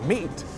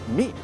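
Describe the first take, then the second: First: The final T sound is clearly released. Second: The final T sound is barely heard. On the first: "A pronúncia é meat" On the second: "Mas falando rápido, esse T nem vai ser escutado"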